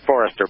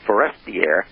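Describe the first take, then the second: First: The name ends with a plain 'ster' sound. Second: The name ends with a 'stier' sound. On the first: The speaker calls it wrong. "not Forester" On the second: The speaker calls it right. "but Forestier"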